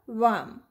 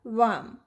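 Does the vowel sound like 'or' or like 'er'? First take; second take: er; er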